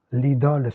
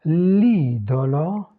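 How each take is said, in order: First: "l'idole" with open o, ending on l; open French o. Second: "L'idolo" slow, closed o's, stressed first i; closed Italian o. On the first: Teacher showing French before Italian, open o in "l'idole". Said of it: "c'est ouvert". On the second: Teacher contrasting Italian with French, closed o in "L'idolo". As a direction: stretch "L'idolo", keeping both o's closed. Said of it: "c'est fermé". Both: Shown as a demonstration.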